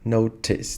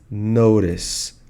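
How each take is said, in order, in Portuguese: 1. O t é um som de t claro e nítido. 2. O t é com batida, soando como um r rápido. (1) "por ser britânica, ela vai falar notice" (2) "Eu falo com um sotaque mais americano, então vai ser notice. O T tem som de R"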